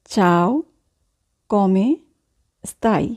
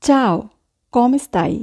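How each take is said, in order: First: "Ciao", "come", "stai?" each set apart by long pauses; slow dictation pace, one word at a time. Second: Said in the usual way. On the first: Shown as a demonstration. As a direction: split "Ciao, come stai?" into separate, carefully spoken words. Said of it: "teacher repeats word by word". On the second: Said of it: "teacher models phrase".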